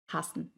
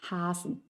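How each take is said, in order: First: Short A in "hassen"; short vowel. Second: Long A, soft S in "hassen", as in Hasen; long vowel. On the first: Teacher showing learners the short vowel in "hassen". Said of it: "una vocal corta". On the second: Teacher showing learners the long vowel in "hassen". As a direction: stretch the first vowel of "hassen". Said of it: "una vocal larga". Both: Shown as a demonstration.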